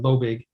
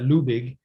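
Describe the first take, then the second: First: The name is said with its Americanized pronunciation. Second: The name is said with its German pronunciation. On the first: This is how the family says the name in America. "when we Americanized it" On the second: This is how the name is said in Germany. "in Germany, they pronounce that"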